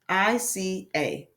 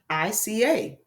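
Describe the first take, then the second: First: Each word is read separately with pauses. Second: The words flow together as one phrase.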